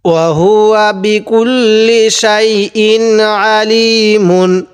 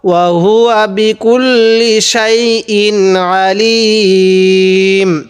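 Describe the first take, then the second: First: The final word keeps its full -un ending. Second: The final word stops short, ending on -m. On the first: The reading continues without stopping. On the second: The reader stops at this point.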